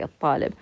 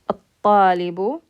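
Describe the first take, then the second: First: The word ends on a bare b sound. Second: The word ends with a short u vowel. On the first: "if there's nothing on the ba, we would just say" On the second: "the ba has dhamma, so we're going to say"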